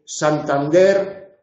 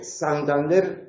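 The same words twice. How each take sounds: First: "Santander" with one regional variety of S; one dialect's S. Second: "Santander" with the other regional variety of S; contrasting dialect S. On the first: Teacher comparing two allophones of S, regional S in "Santander". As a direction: say "Santander" with a clearly articulated dialect S. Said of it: "pronunciado así significa lo mismo". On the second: Teacher comparing two allophones of S, other regional S in "Santander". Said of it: "pronunciado así". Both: Shown as a demonstration.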